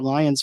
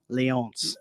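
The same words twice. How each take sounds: First: It is pronounced the English way. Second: It is pronounced the French way. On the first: The speaker calls it wrong. "I was saying the Trois Rivières Lions for the longest time" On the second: The speaker calls it right. "So I added the uh, French accent"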